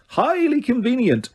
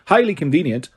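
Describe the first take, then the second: First: Sneering. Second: Said in the usual way. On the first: A narrator's reading. Repeated sneer, higher.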